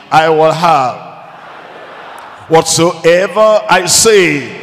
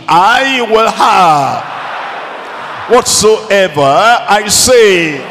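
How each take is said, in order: First: Said in the usual way. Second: Slow, raised, emphatic declaration; with conviction. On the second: Shown as a demonstration. Preacher urging congregation to repeat the promise, with conviction. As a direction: proclaim it with full conviction, drawing out the words. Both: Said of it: "Say it with conviction".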